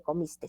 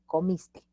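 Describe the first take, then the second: First: "comiste" with an S tacked on the end; wrong added S. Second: "comiste" slowly, ending on the open e; correct ending without S. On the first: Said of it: "No se dice comiste". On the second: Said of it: "se dice comiste". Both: Shown as a demonstration.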